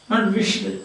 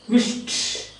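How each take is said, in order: First: The past ending is not a plain t sound. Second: The past ending is a plain t sound. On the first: The speaker calls it wrong. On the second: The speaker calls it right.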